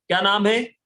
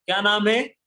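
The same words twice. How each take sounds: The two takes are said the same way.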